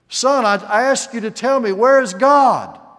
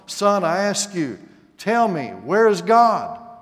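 First: It is asked in a loud, raised voice. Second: It is asked in a sterner, stricter tone.

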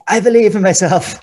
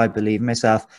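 First: It is said loudly, almost screamed. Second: It is said quietly and meekly.

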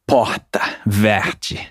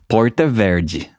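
First: It is said in a Carioca Rio accent. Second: It has an interior São Paulo accent, heavy R.

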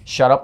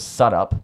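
First: The first word begins with a clear sh sound. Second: The first word begins with a plain s sound.

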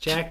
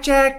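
First: It is said with ordinary, low energy. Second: It is said with more energy and punch.

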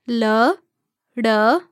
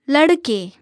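First: The word is said slowly, syllable by syllable. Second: The word is said smoothly at normal speed. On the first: "break down syllable by syllable" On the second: "one time at natural native speed"

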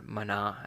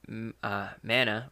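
First: The word is said with a Hebrew pronunciation. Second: The word is said with an English pronunciation.

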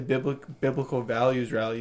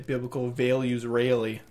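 First: It is said in a general American accent. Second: It is said in a Western New York accent. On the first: "you don't say biblical values rally" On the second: "You say biblical values rally... that's a Western New York thing"

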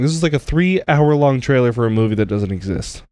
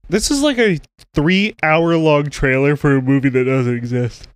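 First: It is spoken without a yawn. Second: It is spoken through a yawn.

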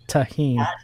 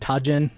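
First: The middle consonant is an h sound. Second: The middle consonant is an English j sound. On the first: This is the proper pronunciation. The speaker calls it right. "Oh, no, that's tahine" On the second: This is an anglicized mispronunciation. The speaker calls it wrong.

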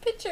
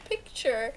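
First: It sounds like pitcher, without the k sound. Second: It has a clear k sound before ch. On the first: This is how the other person said it. The speaker calls it wrong. "you said picture instead of picture" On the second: This is how it should be said. The speaker calls it right. "instead of picture"

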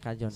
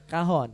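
First: The middle consonant is a 'j' sound. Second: The middle consonant is an 'h' sound. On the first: "Namanya kajon itu" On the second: "Kalau ngomongnya bahasa ini kahon"

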